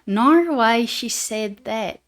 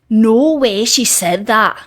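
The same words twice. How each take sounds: First: It is spoken in an Australian accent. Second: It is spoken in a Scottish accent. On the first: "That that was me trying to be Australian" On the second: "That's how I would say it in a Scottish accent"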